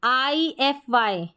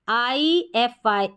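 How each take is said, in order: No difference in how they are said.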